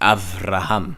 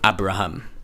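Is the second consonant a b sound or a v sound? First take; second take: v sound; b sound. First: The second consonant is a soft v sound. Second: The second consonant is a hard b sound. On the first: The speaker calls it right. "pronounced as a v" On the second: The speaker calls it wrong. "you see a b, you think it's okay, so it's um"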